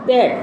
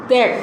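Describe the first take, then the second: No difference in how they are said.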